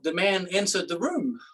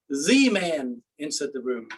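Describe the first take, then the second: First: The stress is on "room". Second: The stress is on "The".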